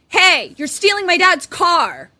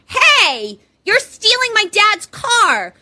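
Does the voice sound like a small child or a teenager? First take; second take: teenager; small child. First: It is said in an older teenager's voice. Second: It is said in a small child's voice.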